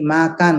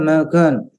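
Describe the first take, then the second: First: The vowels sound plain and natural. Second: The vowels sound shifted and exaggerated. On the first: The speaker calls it right. "seperti makan" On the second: The speaker calls it wrong. "nggak ada itu makan"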